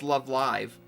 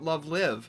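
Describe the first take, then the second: First: Live has a long vowel, rhyming with five. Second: Live has a short vowel, rhyming with give. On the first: The speaker calls it right. "no, that's wrong. It's" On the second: The speaker calls it wrong. "I always call it"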